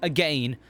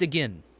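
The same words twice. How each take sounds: First: The second syllable rhymes with pain. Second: The second syllable does not rhyme with pain. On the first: The speaker calls it wrong. "No one says it like that. Unless they need it to rhyme" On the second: The speaker calls it right. "It's again"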